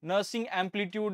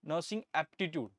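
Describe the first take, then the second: First: The second word sounds like amplitude. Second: The second word has no m or l sound. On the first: The speaker calls it wrong. "कुछ भी बोलते हैं" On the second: The speaker calls it right. "इसको अच्छे से pronounce करिए"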